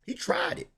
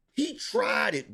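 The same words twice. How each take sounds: First: Whispered aside. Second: Said in the usual way. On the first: Acted. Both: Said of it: "repeating he tried it".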